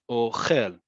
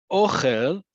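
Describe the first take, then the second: First: "ochel" stressed on the end, o-KHEL; second-syllable stress. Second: "ochel" stressed on the O, OH-khel; first-syllable stress. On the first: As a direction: land on the last syllable of "ochel", falling. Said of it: "is it on the second one". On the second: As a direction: hit the first syllable of "ochel", ending on a rise. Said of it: "emphasis on the first syllable". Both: Shown as a demonstration.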